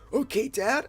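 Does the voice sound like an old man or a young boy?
old man. It is spoken in an old man's voice. The speaker calls it wrong.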